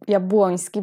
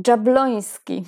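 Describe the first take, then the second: First: Jabłoński with Polish J as "y" and Ł as "w", Yab-WON-ski; Jabłoński read as a native Polish surname; Polish pronunciation. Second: Jabloński with an English J like "dzh" and a clear light L; Jabloński anglicized, J as "dzh", plain L instead of Polish Ł; American pronunciation. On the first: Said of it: "nie chciałam powiedzieć Jab". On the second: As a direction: say Jabloński the American way, Dzhab-LON-ski. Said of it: "I mówi się Jabloński". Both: Shown as a demonstration.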